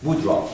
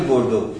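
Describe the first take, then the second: First: "Boudreaux" with the r after the d; corrected surname. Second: "Bordeaux" said like the French city, bor-DOH; first try at "Bordeaux", ending in doh; mispronounced surname. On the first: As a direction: say "Boudreaux" as boo-dro. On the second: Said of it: "my pronunciation". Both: Real, not acted.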